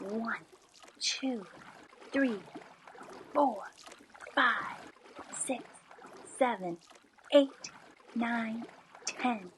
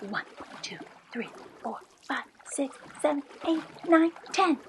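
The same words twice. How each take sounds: First: The numbers are counted at a slower pace. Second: The numbers are counted at a fast pace.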